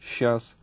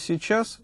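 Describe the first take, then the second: First: Some sounds of the word are dropped. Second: All the sounds of the word are pronounced. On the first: "можно говорить" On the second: "вместо"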